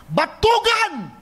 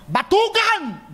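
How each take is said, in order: First: "Batugan" cried out high and drawn out slowly; "Batugan" as a drawn-out, high angry scold; angry rebuke. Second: "Batugan" barked high and stretched out slowly; "Batugan" flung out slowly in a high furious cry; angry rebuke. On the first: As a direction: spit out "Batugan" like a furious master. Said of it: "Ganun na ganun ang pagkakasabi". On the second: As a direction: hurl "Batugan" at him with scorn. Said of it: "Ganun na ganun". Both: Retold or imitated.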